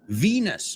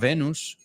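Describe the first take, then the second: First: It is said with English pronunciation. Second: It is said with Spanish pronunciation. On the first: The speaker calls it right. "But in English, listen to the pronunciation, quite different" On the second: The speaker calls it wrong. "no Venus"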